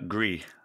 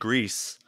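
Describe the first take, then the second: First: The name is said with French pronunciation. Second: The name is said with Spanish pronunciation. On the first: "if it was French, it would be uh, Gris" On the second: "it's the Spanish pronunciation"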